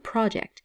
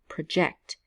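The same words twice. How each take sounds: First: The stress is on the first syllable. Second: The stress is on the second syllable. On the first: It is used as a noun. "the emphasis is on the first syllable, pro" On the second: It is used as a verb. "the emphasis is on the second syllable"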